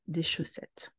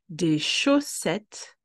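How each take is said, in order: First: The phrase is said at a fast pace. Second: The phrase is said at a slow pace.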